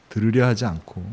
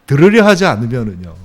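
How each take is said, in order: First: Said in the usual way. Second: 들으려 hit louder with a falling tune; stress on 들으려. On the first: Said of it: "repeated phrase, softer". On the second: Shown as a demonstration. Preacher warning the congregation, 들으려 punched loud. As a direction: lean hard on 들으려 and let it fall. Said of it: "repeated phrase, emphasis".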